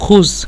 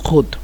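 First: The word ends in a z-like sound. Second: The word ends in a d sound. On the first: This is the standard form. "মূলত খুজ" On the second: This is the Egyptian dialect form. "কিন্তু খুদ"

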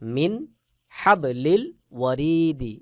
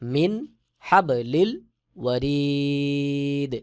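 First: The long vowel is short, ending in a vowel. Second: The long vowel is stretched, ending on d.

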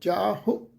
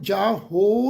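First: The final vowel is short, light and soft. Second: The final vowel is a full, clear o. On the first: The speaker calls it right. "ਪੋਲਾ ਜਿਹਾ ਜਾ ਹੋ" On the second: The speaker calls it wrong. "ਇਹਨੂੰ ਜਾ ਹੋ ਨਹੀਂ ਬਣਾਉਣਾ"

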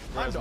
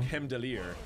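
First: The name is said in its anglicized English form. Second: The name is said in its original, non-English form. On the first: This is the easy form everyone has been using. "we've just all been calling him Heimdall" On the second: This is how the character says his own name. "He pronounces his name. Like Heimdallir"

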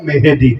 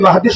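First: The first vowel is an 'e' sound. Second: The first vowel is an open 'a' sound. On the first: The speaker calls it wrong. "বলে ইমাম মেহেদি, মানে যেন হাতে দিবে আর কি" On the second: The speaker calls it right. "মাহদী শব্দটা বলতে পারে না"

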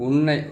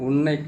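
Both takes have the same delivery.

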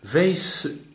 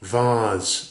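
First: It is said with an American accent. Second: It is said with a British accent.

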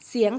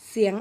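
No difference in how they are said.

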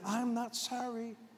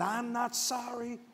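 First: It is said plainly, without extra angst. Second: It is said defiantly, with rising angst.

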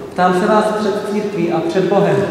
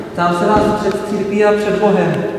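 Both takes have the same delivery.

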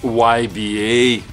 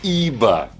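First: The name is spelled out as English letters. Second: The name is said as one word, Iba. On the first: The speaker calls it wrong. "многие пытались говорить YBA. Какой YBA?" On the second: The speaker calls it right. "Так что ИБА на самом деле"

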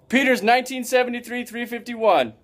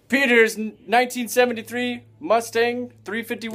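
First: It is said confidently, without stumbling. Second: It is said hesitantly, with a stumble.

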